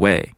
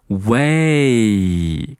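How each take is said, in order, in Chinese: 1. 元音短促，没有完整的滑音。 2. 元音平滑地滑向 ee 的音。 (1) "我们很多人读的都不够完整，就读成了way，就像打电话一样" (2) "这是一个双元音……要有一个平顺的滑动"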